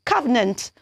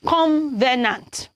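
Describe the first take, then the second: First: "covenant" said kuh-vuh-nunt, three light syllables; the right "covenant" starting kuh; correct covenant. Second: "covenant" said wrongly as kom-ve-nant with an extra n; the mistaken "covenant" with a nasal m after the o. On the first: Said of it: "if you want to pronounce that word". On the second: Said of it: "It is wrong to pronounce that". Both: Shown as a demonstration.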